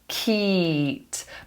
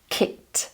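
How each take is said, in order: First: The vowel is long and stretched. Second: The vowel is short and clipped. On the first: The speaker calls it wrong. "confuse this sound with a longer E" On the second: The speaker calls it right. "it's short"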